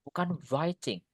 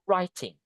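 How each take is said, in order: First: The W sound is pronounced at the start. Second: The W is silent at the start. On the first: The speaker calls it wrong. "W-nya nggak dibaca ya. Bukan writing" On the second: The speaker calls it right. "That's the correct one"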